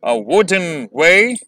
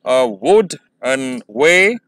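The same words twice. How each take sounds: First: Said in the usual way. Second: "A wooden way" very slow, broken syllable by syllable; slowly. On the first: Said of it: "normally जब आप बोलते हैं". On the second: Shown as a demonstration. Teacher demonstrating the meter slowly first, syllables pulled apart. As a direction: draw out A WOOD-en WAY, rising at the end. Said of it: "पहले slowly करते हैं".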